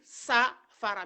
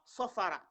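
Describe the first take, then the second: First: The first vowel is a bright, plain a. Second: The first vowel is a dark, o-like sound. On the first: The speaker calls it wrong. "on va pas dire sa fara" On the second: The speaker calls it right. "mais on dit so sofara"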